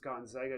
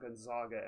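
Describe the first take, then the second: First: The middle syllable sounds like 'zag'. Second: The middle syllable sounds like 'zog'. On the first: The speaker calls it right. "my only opinion is it's Gonzaga" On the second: The speaker calls it wrong. "not Gonzaga ... you don't call them the Zogs"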